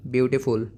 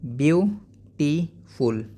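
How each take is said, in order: First: Said in the usual way. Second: beautiful in three slow beats, byu... tee... ful; split into syllables. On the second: Shown as a demonstration. Teacher modelling for pupils, syllable by syllable. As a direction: break beautiful apart, pausing after byu and tee. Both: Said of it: "आप कैसे बोलोगे".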